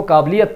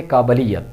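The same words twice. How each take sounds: First: काबिलियत said the common wrong way some people use; wrong pronunciation. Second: काबिलियत said carefully the correct way, each syllable clear; correct pronunciation. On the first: Teacher shows students the wrong काबिलियत, mispronounced. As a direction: demo the mistaken reading of काबिलियत. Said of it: "कुछ लोग इसको काबिलियत पढ़ते जो कि गलत है". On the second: Teacher gives students the right काबिलियत, carefully pronounced. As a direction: model the proper reading of काबिलियत. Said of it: "इसका सही तलफ़ुज़ है काबिलियत". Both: Shown as a demonstration.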